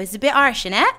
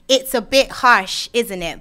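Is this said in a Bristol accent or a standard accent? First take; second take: Bristol; standard. First: It is said in a Bristol accent. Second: It is said in a standard accent.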